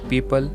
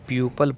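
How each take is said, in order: First: The first syllable has an 'ee' sound. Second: The first syllable has a 'yoo' sound. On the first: The speaker calls it right. "यहाँ ओ letter silent रहेगा।" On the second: The speaker calls it wrong. "But ये गलत है।"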